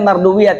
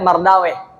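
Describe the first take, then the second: First: The name ends in three syllables, wi-yah. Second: The name ends in one syllable, weh. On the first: The speaker calls it right. "Dibacanya Mardawiyah" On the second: The speaker calls it wrong. "tidak Mardaweh"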